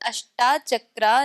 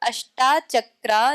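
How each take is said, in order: No difference in how they are said.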